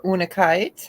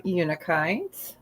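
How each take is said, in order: First: Unakite said with an opening "oo" sound, no y; OO pronunciation. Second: Unakite said with an opening "you" sound; YOO pronunciation. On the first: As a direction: say unakite as OO-nuh-kite. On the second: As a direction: say unakite as YOO-nuh-kite. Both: Shown as a demonstration. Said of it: "however you'd like to say it".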